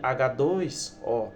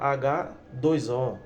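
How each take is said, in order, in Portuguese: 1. A palavra 'dois' está agrupada com o H. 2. A palavra 'dois' está agrupada com o O. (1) "Mas na verdade H dois O" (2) "Muitas vezes a pessoa fala H dois O"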